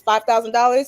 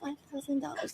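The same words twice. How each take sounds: First: It is said firmly and with conviction. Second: It is said casually and hesitantly. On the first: The seller fully believes the offer is worth it. The speaker calls it right. "you have to say it with confidence and conviction" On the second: The seller does not fully believe in the price. The speaker calls it wrong. "like casually ask people for like"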